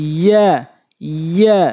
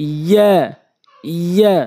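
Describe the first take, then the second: Both takes have the same delivery.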